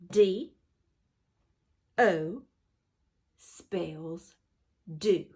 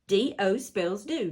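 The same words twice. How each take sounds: First: The phrase is said slowly. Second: The phrase is said quickly. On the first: "Let's say it slow" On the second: "Let's say it fast"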